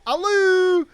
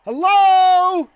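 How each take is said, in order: First: High mimicked hello with an "oo" ending; high-pitched "a-loo", playfully mocking; cheeky echo. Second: High, loud, drawn-out hello; imitating a cop hollering hello; calling out. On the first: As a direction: echo the greeting back in a high, silly call. He cheekily echoes cop's hello. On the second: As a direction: call into an empty room, high and loud. Cop calls into empty entrance.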